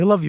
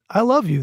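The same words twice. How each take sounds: First: The phrase is said quickly and offhandedly. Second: The phrase is said slowly and deliberately. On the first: It is tossed off at the end of a call. The speaker calls it wrong. "I still kinda say it fast" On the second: It is said sincerely, face to face. The speaker calls it right. "working on saying it a little bit slower"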